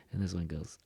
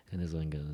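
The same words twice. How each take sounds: The two takes are said the same way.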